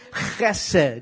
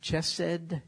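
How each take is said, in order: First: It begins with a rough throat-clearing sound. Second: It begins with an English 'ch' sound. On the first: The speaker calls it right. "clears all the" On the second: The speaker calls it wrong. "It's spelled like chesed, chesed, C-H-E-S-E-D. But don't say it that way"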